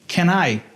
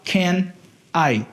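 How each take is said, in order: First: The two words are joined together. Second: The two words are said separately. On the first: The speaker calls it right. "a gente vai juntar" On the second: The speaker calls it wrong. "não dá para falar can I"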